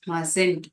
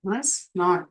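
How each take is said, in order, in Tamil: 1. இது ஒரு சுருக்கப்பட்ட வார்த்தையாக சொல்லப்படுகிறது. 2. இது இரண்டு முழு, தனி வார்த்தைகளாக சொல்லப்படுகிறது.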